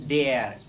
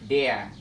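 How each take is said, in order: Both takes have the same delivery.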